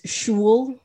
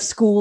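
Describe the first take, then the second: First: The word is pronounced in an odd, altered way. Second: The word is pronounced the standard way. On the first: The speaker calls it wrong. "he says shul" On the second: The speaker calls it right. "instead of school"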